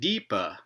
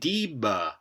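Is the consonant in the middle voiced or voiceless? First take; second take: voiceless; voiced. First: The middle consonant is a voiceless stop. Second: The middle consonant is a voiced stop. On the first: This is the form the regular pattern predicts. The speaker calls it wrong. "you should get deepa, just like pipa" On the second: This is the form actually found. The speaker calls it right. "with a voiced stop"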